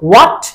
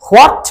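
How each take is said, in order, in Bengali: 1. এটি একটি সিলেবলে বলা হয়, 'wot'। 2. এটি দুটি সিলেবলে বলা হয়, 'ho-at'। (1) "আমরা বলবো what" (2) "what বলা যাবে না"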